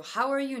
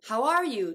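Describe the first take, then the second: First: "are" in "How are you" weakened to "er"; reduced ARE. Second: "are" in "How are you" said as a full vowel; clearly pronounced ARE. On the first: Reading a viewer's question, "are" in "How are you" reduced to "er". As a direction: shrink "are" to a quick "er". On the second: Reading a viewer's question, "are" in "How are you" fully pronounced. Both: Shown as a demonstration. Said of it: "Rをちゃんと発音した時と音声変化した時".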